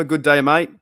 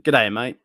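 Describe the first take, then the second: First: Good day, mate with a flat American read, loud; saying Good day, mate like a non-Australian, loud; non-Australian g'day. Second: G'day, mate clipped into the Australian g'day; proper Australian G'day, mate. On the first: Replying to a chatter's g'day in a non-Australian accent. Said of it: "I said that like not Australian". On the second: Redoing the greeting to a chatter in his own Australian accent. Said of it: "not Australian". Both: Shown as a demonstration.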